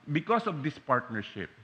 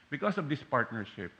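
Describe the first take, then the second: No difference in how they are said.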